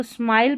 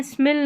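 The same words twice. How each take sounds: First: स्माइल with a long "eye" vowel; correct reading of smile. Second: स्मिल with a short "i"; wrong reading of smile. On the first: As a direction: say स्माइल to rhyme with "mile". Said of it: "स्माइल पढ़ना है". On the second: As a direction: say स्मिल to rhyme with "mill". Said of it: "स्मिल नहीं पढ़ेंगे". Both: Shown as a demonstration.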